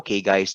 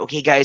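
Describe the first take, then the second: First: The voice is flat and low in energy. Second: The voice is lively and high in energy. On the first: The speaker calls it wrong. "it cannot be" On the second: The speaker calls it right. "dapat ang ang energy natin"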